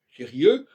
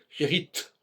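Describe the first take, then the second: First: The word ends in a vowel, no final consonant. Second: The word ends with a clear t sound. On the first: The feminine sounds the same as the masculine. The speaker calls it wrong. "On ne devrait pas dire" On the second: The feminine is audibly different from the masculine. The speaker calls it right. "on devrait dire"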